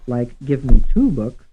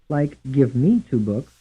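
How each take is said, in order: First: The stress falls on the word two. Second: The stress falls on the word me. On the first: "Some stressed on the third syllable" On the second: "Some stressed on the second syllable"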